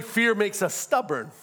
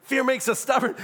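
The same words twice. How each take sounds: First: Said in the usual way. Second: "Fear makes us stubborn" again, louder and higher, pushing for amens; preached repeat with "Fear" hit hard; stronger repeat. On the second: Shown as a demonstration. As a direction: punch the line at the congregation. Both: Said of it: "I ain't getting no amens on that".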